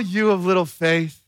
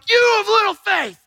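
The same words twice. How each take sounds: First: The voice sounds gentle and warm. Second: The voice sounds angry and harsh. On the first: The speaker is reassuring someone who doubted. "But what if it was, you guys, oh" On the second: The speaker is scolding someone for doubting. "that Jesus was this angry guy, that if you doubted him, he'd be like"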